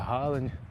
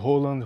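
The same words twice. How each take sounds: First: The name has a Brazilian Portuguese pronunciation. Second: The name has its original, non-Brazilian pronunciation. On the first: This is how people say it locally. "Aqui a gente fala Haaland" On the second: This is the correct pronunciation, but it suggests something rude. "essa é a pronúncia certa"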